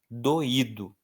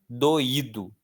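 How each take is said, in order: No difference in how they are said.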